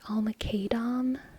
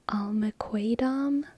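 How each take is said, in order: First: The middle consonant is a plain 'k' sound. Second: The middle consonant is a 'kw' sound. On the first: "I always say this K in the middle as if it's Spanish" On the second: "It might be Kwa"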